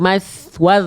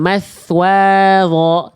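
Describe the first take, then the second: First: The vowel after w is short, moving straight on. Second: The vowel after w is drawn out long. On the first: The speaker calls it right. "tapi mas waz langsung" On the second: The speaker calls it wrong. "jangan jangan dipanjangkan wawunya"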